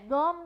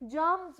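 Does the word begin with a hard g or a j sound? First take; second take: hard g; j sound. First: The word begins with a hard g sound. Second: The word begins with a j sound. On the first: The speaker calls it wrong. "हम जी को गे गम नहीं बोलते" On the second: The speaker calls it right. "जर्म्स बोलते हैं, ज की sound देते हैं"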